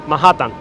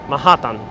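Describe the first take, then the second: Both takes have the same delivery.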